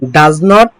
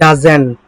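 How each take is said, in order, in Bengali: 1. নেগেটিভটি দুটি পূর্ণ শব্দ হিসেবে বলা হয়। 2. নেগেটিভটি একটি সংকুচিত শব্দ হিসেবে বলা হয়। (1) "ডাজ নট না বলে" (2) "বলবেন ডাজেন্ট"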